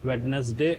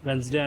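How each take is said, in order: First: It is said the common Indian way. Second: It is said the standard international way. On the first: This is the form most Indians use. "మన Indians అందరూ వెడ్నెస్డే" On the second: This is the form used worldwide. "యూనివర్సల్గా వెన్స్డే అని అంటారు"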